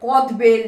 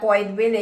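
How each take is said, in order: First: The first word is a short kod. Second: The first word is a longer koyed. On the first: Some people in some places say it this way. "কেউ কদ বেল বলে" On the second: The speaker's own people say it this way. "আমরা কয়েদ বেল বলি"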